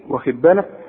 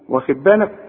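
Both takes have the same delivery.

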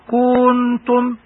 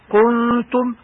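First: The vowel before the nasal is stretched long. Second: The vowel before the nasal is kept short. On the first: The speaker calls it wrong. "حتى لا تقرأ كنتم" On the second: The speaker calls it right. "مثال كنتم"

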